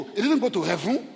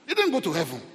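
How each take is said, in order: First: HEAVEN lifted at the end like a question; questioning rise. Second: HEAVEN brought down at the end as a statement; falling statement. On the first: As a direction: ask it, voice climbing on HEAVEN. Rhetorical question, then answered with falling tune. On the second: Same words repeated as firm answer. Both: Shown as a demonstration.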